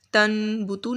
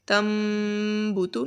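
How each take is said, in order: First: تن بوتو with a plain clear ن; the incorrect reading with a clear noon; wrong take. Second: تم بوتو with a held nasal م; nasal ghunna. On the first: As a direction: say تن بوتو with a sharp ن, no nasal sound. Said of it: "تن بوتو نہیں پڑھیں گے". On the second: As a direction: carry the م of تم through the nose, then بوتو. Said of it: "ناک میں آواز لے کر جائیں گے". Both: Shown as a demonstration.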